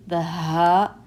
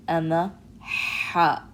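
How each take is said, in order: First: Ha from the chest; breathy ha. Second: ح, ha slow and raspy in the throat. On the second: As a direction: rasp the ha slowly. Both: Shown as a demonstration. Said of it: "differentiating between".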